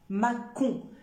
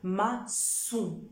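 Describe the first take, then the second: First: The middle consonant is not an s sound. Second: The middle consonant is an s sound. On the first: "si j'enlève la cédille, je vais prononcer macon" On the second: "avec la cédille, je vais obtenir le son se"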